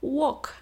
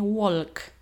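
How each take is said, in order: First: The L sound is silent. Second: The L sound is clearly pronounced. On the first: The speaker calls it right. "Przecież mówimy walk" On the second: The speaker calls it wrong. "a nie walk"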